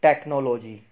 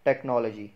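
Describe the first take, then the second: First: 'टेक्नोलॉजी' with full O in NO and LO; mispronounced technology. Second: 'टेक्नोलॉजी' as tek-NOL-uh-jee; correct technology. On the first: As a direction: say 'टेक्नोलॉजी' as tek-no-LO-jee, louder. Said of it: "गलत इसको कैसे बोला जाता है". ('टेक्नोलॉजी' का गलत उच्चारण, नो-लो पूरे ओ से) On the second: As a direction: say 'टेक्नोलॉजी' with open NOL and reduced LO. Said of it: "इसको क्या बोलते हैं?". ('टेक्नोलॉजी' का सही उच्चारण, टेक-नॉल-अ-जी) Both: Shown as a demonstration.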